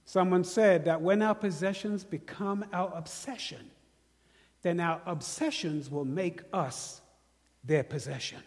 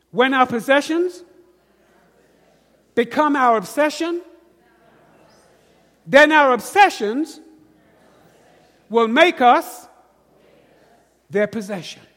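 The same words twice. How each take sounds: First: Said in the usual way. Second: "When our possessions" louder, each phrase punched with pauses; emphatic call-and-repeat. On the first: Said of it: "Let me say that again". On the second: Shown as a demonstration. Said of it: "repeat after me".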